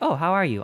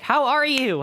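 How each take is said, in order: First: The question is asked in a casual, plain way. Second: The question is asked in an emphatic, forceful way.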